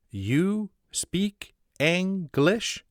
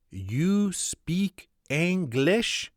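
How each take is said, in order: First: Very slow, high, hopeful question; hopeful echo. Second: Put-on very slow, high French-accented English; broken English. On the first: Acted. Sparks echoing the footman's question, very slow and hopeful. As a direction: plead the question back, stretched out. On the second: Footman asking the American, very slow broken English. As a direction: stretch out each word in a French accent. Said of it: "says in broken English".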